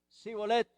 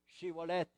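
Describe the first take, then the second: First: The word begins with a plain s sound. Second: The word begins with a sh-like sound. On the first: The speaker is allowed to pass. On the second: The speaker is put to death.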